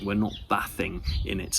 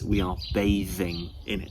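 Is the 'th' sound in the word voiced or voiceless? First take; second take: voiceless; voiced. First: The 'th' sound is voiceless, without the voice. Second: The 'th' sound is voiced, using the voice. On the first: The speaker calls it wrong. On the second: The speaker calls it right.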